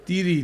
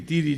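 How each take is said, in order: The two takes are said the same way.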